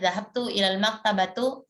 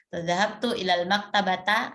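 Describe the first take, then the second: First: The last word ends in an u vowel. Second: The last word ends in an a vowel. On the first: "nah itu pasti keliru ya" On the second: "nah itu pasti keliru"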